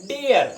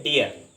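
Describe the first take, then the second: First: डियर said the English way, high and falling; डियर in the English style, drawn up high; British dear. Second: Said in the usual way. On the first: Shown as a demonstration. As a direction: give डियर a British vowel, pitched up. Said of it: "अंग्रेज लोग उच्चारण करते हैं डियर". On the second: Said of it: "और हम उच्चारण करते हैं डियर".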